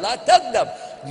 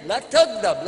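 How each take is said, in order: First: "la taghdab" drawn out slowly, every syllable weighed; slow emphatic advice. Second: "La taghdab" said at a normal pace; repeated advice. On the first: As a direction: stretch out "la taghdab" slowly to drive it home. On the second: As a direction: say "La taghdab" plainly, a touch raised. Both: Shown as a demonstration.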